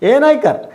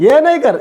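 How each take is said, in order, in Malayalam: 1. വാക്കുകൾ ചേർന്ന് ഒരു ചെറിയ രൂപമായി പറയുന്നു. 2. വാക്കുകൾ ചേർന്ന് ഒരു ചെറിയ രൂപമായി പറയുന്നു.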